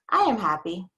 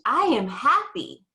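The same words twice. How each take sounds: First: It is said in a calm, plain voice. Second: It is said with big, strong feeling.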